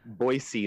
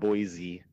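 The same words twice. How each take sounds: First: The middle consonant is an s sound. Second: The middle consonant is a z sound. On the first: The speaker calls it right. "it's also Boise" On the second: The speaker calls it wrong. "not Boise. There's no Z in there"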